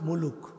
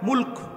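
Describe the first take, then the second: First: An extra u vowel is heard between l and k. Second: No vowel is heard between l and k. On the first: The speaker calls it wrong. "Bangla ভাষায় মুলুক বলে না" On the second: The speaker calls it right. "সঠিক উচ্চারণ করতে হলে"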